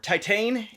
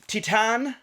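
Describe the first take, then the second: First: The word is said with an American pronunciation. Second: The word is said with a French pronunciation.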